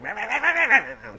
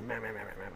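First: It is said loudly with excited energy. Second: It is murmured in a low, quiet voice.

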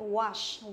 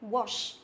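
First: The vowel is a long open ah sound. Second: The vowel is a short rounded o sound. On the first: This is the American pronunciation. "trong tiếng Anh Mỹ thì chúng ta đọc là A dài, ví dụ wash" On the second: This is the British pronunciation. "theo tiếng Anh á, thì chúng ta sẽ đọc nó là O, theo kiểu là O ngắn"

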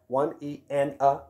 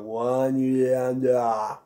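First: Each syllable is pronounced crisply and distinctly. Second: The syllables are slurred loosely and lazily together. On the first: The speaker calls it right. "really articulating the one, E, and a" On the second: The speaker calls it wrong. "get a little sloppy and lazy and go"

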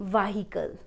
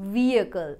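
First: The h sound is strong and separate. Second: The h sound is soft and blended. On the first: The speaker calls it wrong. "and not vehicle" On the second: The speaker calls it right. "Vehicle, vehicle"

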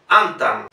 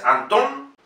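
First: The stress is on the first syllable. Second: The stress is on the last syllable. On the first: The speaker calls it wrong. "Si fuese llana, se pronunciaría Antan" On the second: The speaker calls it right. "Anton es aguda"

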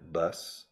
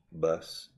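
First: It is said in an American accent. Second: The same.

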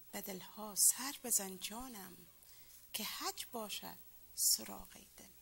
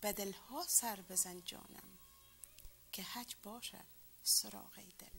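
Both takes have the same delivery.

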